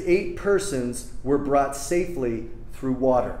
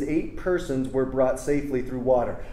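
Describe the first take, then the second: First: It is read slowly and deliberately. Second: It is read at a normal pace.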